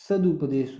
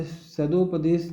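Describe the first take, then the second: First: सदुपदेश with a short u after द, sadupadesh; correct spelling said. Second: सदोपदेश with a clear o after द, sadopadesh; wrong spelling said. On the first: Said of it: "सदुपदेश होता है". (सही रूप: सदुपदेश, द के बाद छोटा उ) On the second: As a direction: say सदोपदेश stressing the wrong o vowel. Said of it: "सदोपदेश गलत है". (गलत रूप: सदोपदेश, द के बाद ओ साफ़ बोलें) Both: Shown as a demonstration.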